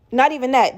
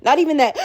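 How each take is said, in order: First: Sharp gasp, then the words; gasping sob. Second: Said in the usual way. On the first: Shown as a demonstration. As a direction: gasp for breath then repeat it.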